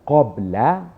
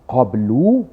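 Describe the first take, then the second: First: The word ends with an 'a' vowel. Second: The word ends with a 'u' vowel. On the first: The speaker calls it right. "tapi dibaca dengan qabla" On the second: The speaker calls it wrong. "tidak dibaca dengan baris hadapan"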